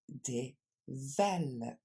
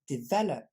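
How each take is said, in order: First: The word is said at a normal pace. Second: The word is said a little faster.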